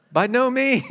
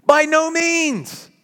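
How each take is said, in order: First: Said in the usual way. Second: By no means slow and higher, no stretched; emphatic, drawn-out no. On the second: Shown as a demonstration. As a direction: drag out By no means with a hard no. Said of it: "this side that defies apathy".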